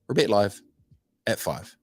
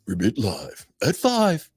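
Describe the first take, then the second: First: It is said in an ordinary speaking voice. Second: It is said in a put-on radio-announcer voice.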